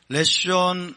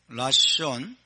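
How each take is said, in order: First: The first vowel is a reduced 'e' sound. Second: The first vowel is a full 'a' sound. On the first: The word is joined to the following word. "이제 연결이 되기 때문에 레숀이라고 합니다" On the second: The word stands on its own. "라숀이라고"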